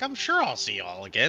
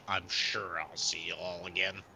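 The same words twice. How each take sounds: First: It is said in a warm, positive tone. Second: It is said in a cold, negative tone. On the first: The writer is glad and hopes to meet again. "That could be like positive" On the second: The meeting again is meant as a threat. "or it could be like"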